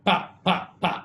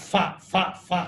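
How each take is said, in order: First: Each syllable starts with a p sound. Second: Each syllable starts with an f sound. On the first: The speaker calls it right. "டேய் பிளாட்ஃபார்ம் பா பா பா அப்படிம்பாரு" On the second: The speaker calls it wrong. "இவன் ஃபா ஃபா ஃபா அப்படின்னு"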